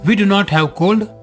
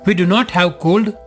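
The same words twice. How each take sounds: No difference in how they are said.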